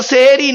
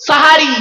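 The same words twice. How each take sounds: First: "সেহেরি" with e in the first two syllables; wrong e vowels. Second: "সাহারি" with open a vowels; corrected a vowels. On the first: Preacher rejecting common usage, "সেহেরি" with e vowels. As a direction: say "সেহেরি", seh-eh-ree. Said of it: "শব্দটা সেহেরি নয়". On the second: Preacher giving the correct word, emphatic open-a "সাহারি". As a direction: announce "সাহারি" firmly as saa-haa-ree. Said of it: "শব্দটা হলো সাহারি". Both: Shown as a demonstration.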